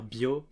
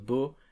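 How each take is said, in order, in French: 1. Un glide 'ee' vient avant la voyelle. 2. La voyelle est simple, sans glide avant elle.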